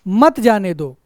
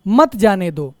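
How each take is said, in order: The two takes are said the same way.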